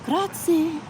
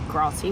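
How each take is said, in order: First: High, sing-song Italian Grazie with a rolled r; best Italian accent. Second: Said in the usual way. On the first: Retold or imitated. Thanking the bus driver in her best Italian accent. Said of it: "in my best Italian accent". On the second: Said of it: "not like I just did then".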